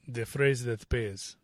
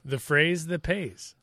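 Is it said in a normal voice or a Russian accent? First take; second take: Russian accent; normal voice. First: It is said in a Russian accent. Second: It is said in his normal voice.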